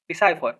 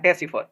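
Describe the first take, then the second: First: The middle syllable has a long 'eye' sound. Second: The middle syllable has a short 'i' sound. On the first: "इसको डिसाइफर बोला जाता है" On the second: "डेसिफर बोल सकते हैं"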